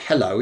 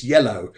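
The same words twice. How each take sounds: First: Said in the usual way. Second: "yellow" with a y sound in place of the h of hello; greeting pronounced yellow. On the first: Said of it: "It's not hello". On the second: Shown as a demonstration. Medium correcting hello to the spirit's greeting, "yellow" with a clear y. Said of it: "It's not hello, it's".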